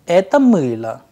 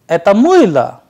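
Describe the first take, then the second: First: It is said with plain statement intonation. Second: It is said with question intonation. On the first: This is a soap. "The first sentence was это мыло, a simple sentence which means this is a soap" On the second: Is this a soap? "which means is this a soap, an interrogative sentence"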